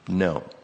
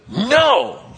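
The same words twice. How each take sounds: First: The word is said calmly at normal volume. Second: The word is yelled loudly and sharply. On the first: "But you didn't say it like that" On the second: "You yelled at them"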